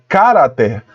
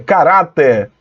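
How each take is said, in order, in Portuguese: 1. A sílaba tônica é a primeira. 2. A sílaba tônica é a segunda. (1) "olha onde foi colocado o acento, no K. Aí fica" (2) "a sílaba tônica é ra"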